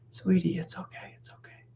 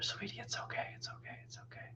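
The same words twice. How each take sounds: First: Soft, hushed comforting murmur; hushing a baby held close; soothing baby. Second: Put-on hushed whisper to a baby; cradling and hushing a crying baby; whispered soothing. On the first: Retold or imitated. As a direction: soothe a crying baby, barely above a whisper. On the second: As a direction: whisper comfort into her ear.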